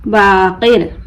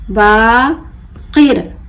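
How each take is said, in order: First: Said in the usual way. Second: Baqir slowly split, long बा, pause, किर; broken into syllables. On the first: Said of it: "मिलाकर पढ़ें". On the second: Shown as a demonstration. Teacher breaking the word for learners, बा... किर with a gap. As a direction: pull Baqir apart into बा and किर. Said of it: "तोड़ तोड़ कर पढ़ूंगी".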